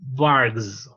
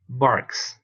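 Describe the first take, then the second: First: The word ends with a voiced z sound. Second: The word ends with a voiceless s sound. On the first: It is a contraction with is. "is is with Z, not with S" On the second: It is a plural or third-person form. "it is going to sound like an S"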